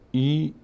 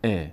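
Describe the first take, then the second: First: "ای" held as a higher, long ee; wrong long ee. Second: "ا" as a short, open e; short e vowel. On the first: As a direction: draw "ای" out as ee. (ایِ کشیده و غلط) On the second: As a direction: keep "ا" a brief e, no ee. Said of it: "ای نشه". (اِ کوتاه) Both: Shown as a demonstration.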